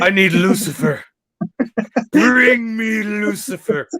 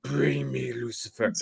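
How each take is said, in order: First: High, drawn-out imperious demand; hammed-up summons, stretched slow and high; Artesia. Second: Drawn out softly like an ominous caption; Artesia. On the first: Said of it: "Artesia has spoken". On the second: Retold or imitated. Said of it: "give me Artesia doing this".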